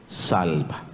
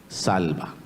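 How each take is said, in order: The two takes are said the same way.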